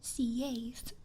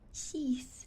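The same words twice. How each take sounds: First: The name's vowel does not rhyme with teeth. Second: The name's vowel rhymes with teeth. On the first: The speaker calls it right. "I like my way of saying it" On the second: The speaker calls it wrong. "Seeth like teeth"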